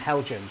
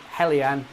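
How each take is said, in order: First: The middle consonant is a 'j' sound. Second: The middle consonant is a 'y' sound. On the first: The speaker calls it wrong. "and not Dapol and Helgen" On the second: The speaker calls it right. "it is Dapol and Hellion"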